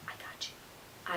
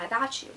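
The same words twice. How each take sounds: First: Breathy, secretive whisper. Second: Said in the usual way. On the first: Acted. Teen vlogger promising proof to critics, whispered.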